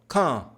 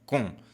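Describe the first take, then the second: First: The vowel is open and more nasal. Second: The vowel is closed and tight. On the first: The speaker calls it right. "É mais aberto, ó. ... um pouco mais nasal" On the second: The speaker calls it wrong. "Você não pode falar assim com som fechado"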